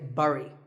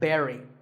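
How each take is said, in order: First: Its vowel sounds different from berry. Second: It sounds exactly like the word berry. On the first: The speaker calls it wrong. "I used to say bury" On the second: The speaker calls it right. "this word sounds just like the berry in strawberry"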